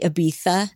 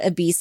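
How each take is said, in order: First: It is pronounced with a put-on Spanish accent. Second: It is pronounced with a plain English accent.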